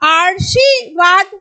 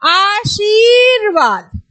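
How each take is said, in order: First: The r sound comes at a shifted position. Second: The r sound comes at the standard position. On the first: The speaker calls it wrong. "इसका उच्चारण स्थान यहां पे आ जाएगा" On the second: The speaker calls it right. "तो क्या बोलेंगे"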